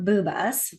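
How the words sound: The name is said with Spanish sounds.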